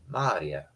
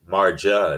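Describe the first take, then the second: First: The middle has an ee sound. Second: The middle has a j sound. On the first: The speaker calls it right. "it's a Maria" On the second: The speaker calls it wrong. "You don't pronounce the J as a Marja"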